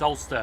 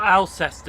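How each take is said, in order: First: The name is said with two syllables. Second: The name is said with three syllables. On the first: The speaker calls it right. "it's Ulster" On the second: The speaker calls it wrong. "It's not Alcester"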